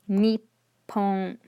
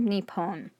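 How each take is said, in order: First: There is a brief stop before the p. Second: There is no stop before the p. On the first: The speaker calls it right. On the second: The speaker calls it wrong.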